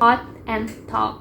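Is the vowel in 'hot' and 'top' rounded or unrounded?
rounded. The vowel is said with rounded lips. "dalam di dialek ini mereka menggunakan rounded vowel. Jadi membacanya itu hot and top"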